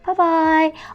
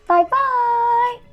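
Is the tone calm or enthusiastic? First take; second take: calm; enthusiastic. First: It is said in a calmer, more restrained tone. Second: It is said in a lively, enthusiastic tone. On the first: This is how to speak to adults. "you could hear the difference in tone" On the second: This is how to speak to children. "always be enthusiastic"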